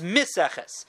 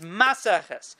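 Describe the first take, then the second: First: The first vowel is an 'i' sound. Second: The first vowel is an 'a' sound. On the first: It refers to a mixture. "According to me, that I say it's because it's a mixture, the word is miseches" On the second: It refers to setting up a loom. "according to the Sefer Chasidim, the word is maseches"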